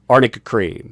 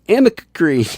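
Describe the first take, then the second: First: The first word is said as arnica. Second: The first word is said as amica. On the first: The speaker calls it right. "she does say it right" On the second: The speaker calls it wrong. "she's like my Amica cream"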